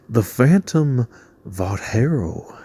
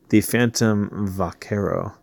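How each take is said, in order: First: It is said in a King of the Hill-style accent. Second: It is said in his normal voice.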